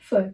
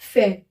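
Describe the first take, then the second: First: The vowel sounds like a short uh. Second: The vowel sounds like an open eh. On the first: "ई पे एक्सेंट नहीं लगा है, तो उसको हम प्रोनाउंस करेंगे फर" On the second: "ई पे हमने एक्सेंट लगा दिया, तो इसका प्रोनाउंसिएशन हो जाएगा फेयर"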